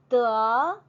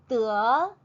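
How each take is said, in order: The two takes are said the same way.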